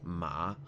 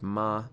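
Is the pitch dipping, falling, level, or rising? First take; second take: dipping; level. First: The pitch dips down and back up. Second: The pitch stays high and level. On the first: It means horse. "a dipping of your pitch" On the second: It means mother. "it's a high flat tone"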